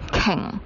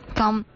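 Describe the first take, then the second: First: The word is read with the Cantonese pronunciation. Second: The word is read with a Mandarin-like pronunciation. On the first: The speaker calls it right. "是叫鲸" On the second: The speaker calls it wrong. "在广东话里面那个发音呢，就不是叫鲸"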